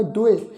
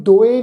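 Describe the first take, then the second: First: ਦੁਏ said with a clear u, du-e; correct pronunciation. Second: ਦੋਏ said with an o sound, the wrong way; wrong pronunciation. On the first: Teacher gives the sangat the correct ਦੁਏ. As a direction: give the right ਦੁਏ with u. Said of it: "ਉਚਾਰਨ ਕਰਾਂਗੇ ਦੁਏ". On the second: Teacher shows students the wrong ਦੋਏ. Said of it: "ਇਹਨੂੰ ਦੋਏ ਨਹੀਂ ਉਚਾਰਨ ਕਰਨਾ". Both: Shown as a demonstration.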